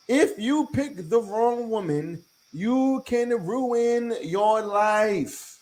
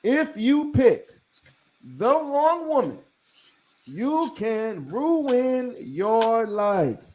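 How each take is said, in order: First: Slow and weighty, every word leaned on; slow emphatic warning. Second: Higher and spaced out, pauses between phrases, "wrong" hit hard; slower repeated warning, higher. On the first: To men listening, slow emphatic warning. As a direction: drag it out so the warning lands. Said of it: "I'm gonna say that one more time". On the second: Repeating it for the guys, higher and spaced. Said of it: "Let's say that again". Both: Shown as a demonstration.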